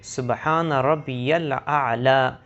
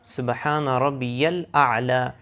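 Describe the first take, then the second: The two takes are said the same way.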